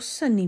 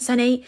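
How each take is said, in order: First: The name is said calmly and sadly. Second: The name is shouted sharply. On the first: The parent only wants to talk gently. "really calm, like almost sad tone" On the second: The child must stop right now. "like kind of like was like shouted to stop him"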